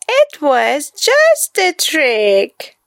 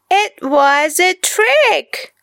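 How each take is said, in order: First: Said in the usual way. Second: Put-on high boy voice, laughing through it. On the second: A narrator's reading. Boy admits the trick, laughing. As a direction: gloat with a giggle. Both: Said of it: "laughed Kipper".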